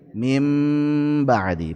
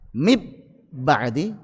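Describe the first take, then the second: First: The n is changed into an m sound. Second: The n is merged into a doubled b. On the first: The speaker calls it right. "Diubah jadi mim" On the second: The speaker calls it wrong.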